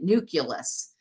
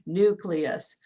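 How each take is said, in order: First: The L sound comes late in the word. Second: The L sound comes early in the word. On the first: The speaker calls it wrong. "calling it nucleus. And I was like, no" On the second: The speaker calls it right. "the L comes first"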